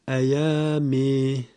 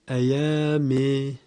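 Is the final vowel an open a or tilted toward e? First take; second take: tilted e; tilted e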